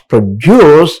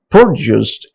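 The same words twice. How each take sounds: First: The stress is on the second syllable. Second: The stress is on the first syllable. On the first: It is used as a verb. "a second syllable is stress on each uh, you know word" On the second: It is used as a noun. "in first four sentences I highlighted only first syllable of the word"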